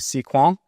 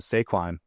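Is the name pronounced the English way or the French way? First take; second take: French; English. First: The name is pronounced with French sounds. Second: The name is pronounced with English sounds. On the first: "In French, it's actually Sequan" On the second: "we should just call it Saquon ... like the football player"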